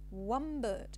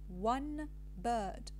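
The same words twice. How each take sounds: First: The word one ends with an m sound. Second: The word one ends with an n sound. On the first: "the n becomes m" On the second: "This is the careful transcription"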